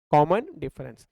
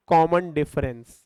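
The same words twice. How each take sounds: First: Said in the usual way. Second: Common difference, very slow, each syllable stretched out; drawn-out answer. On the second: Shown as a demonstration. Teacher giving students the term, slowly drawn out. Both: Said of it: "What is D?".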